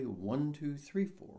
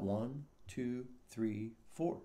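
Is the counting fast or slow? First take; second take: fast; slow. First: The numbers are counted at a fast pace. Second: The numbers are counted at a slow pace.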